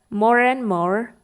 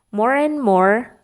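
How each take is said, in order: Both takes have the same delivery.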